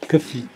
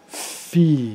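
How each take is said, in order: First: A small consonant noise comes before the syllable. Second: The syllable is said cleanly with no extra noise. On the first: The speaker calls it wrong. "vous avez fait que fi, que fi" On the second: The speaker calls it right. "Il faut faire fi"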